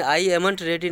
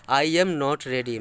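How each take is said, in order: First: Said in the usual way. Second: Very slow, word by word; slow dictation. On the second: Shown as a demonstration. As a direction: read it out slowly like dictation. (बहुत धीरे, शब्द-शब्द करके) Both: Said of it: "समझ गए?".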